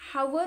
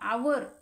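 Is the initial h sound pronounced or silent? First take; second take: pronounced; silent. First: The word starts with an audible h sound. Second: The word starts directly with a vowel sound. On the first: The speaker calls it wrong. "हावर असं वाचतो का या ठिकाणी पहा या ठिकाणी हावर न वाचता" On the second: The speaker calls it right. "एच जी आहे या ठिकाणी सायलेंट"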